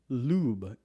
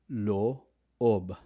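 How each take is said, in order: First: The vowel is one long 'oo' sound. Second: The vowel is two separate 'o' sounds. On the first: The speaker calls it wrong. "You don't pronounce it as lube" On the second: The speaker calls it right. "It's always loob"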